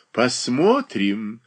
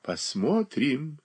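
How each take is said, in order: First: Drawn out slyly. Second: Slow sly drawl; drawn out slyly. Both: A narrator's reading. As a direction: stretch it out with a sly smile. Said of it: "протяжно проговорила Софья Андреевна с лукавой улыбкой".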